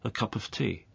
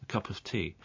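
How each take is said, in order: First: The words run together like one word. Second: The words run together like one word.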